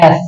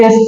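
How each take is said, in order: First: এস with a wide-open vowel; wrong S. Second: এস with a tight vowel and long hiss; correct English S. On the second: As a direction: keep the vowel of এস close, then hiss. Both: Shown as a demonstration. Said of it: "not এস".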